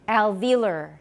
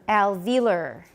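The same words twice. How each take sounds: The two takes are said the same way.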